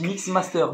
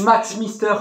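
First: It is pronounced like 'mix master'. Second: It is pronounced like 'max mister'. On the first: This is how people in the field say it. The speaker calls it right. "Par contre, on dit Mix Master" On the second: Someone else said it this way. The speaker calls it wrong. "j'adore parce qu'il dit Max Mister"

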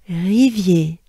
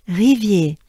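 The two takes are said the same way.

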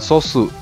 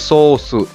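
First: The first vowel is short. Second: The first vowel is held long. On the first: The speaker calls it wrong. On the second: The speaker calls it right. "dibacanya agak panjang"

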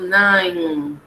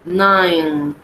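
The two takes are said the same way.

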